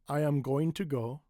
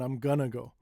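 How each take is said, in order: First: Every word is said fully and clearly. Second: The words are run together and shortened. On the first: "This is full enunciation" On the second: "This is very little enunciation"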